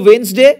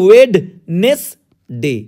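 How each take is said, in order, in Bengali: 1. এটি একটি মসৃণ, সাধারণ শব্দ হিসেবে বলা হয়। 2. এটি অক্ষর অনুযায়ী অংশে ভাগ করে বলা হয়। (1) "প্রোনাউন্সিয়েশনের সময় বলবে" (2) "স্পেলিং এর জন্য মাথায় রাখবে"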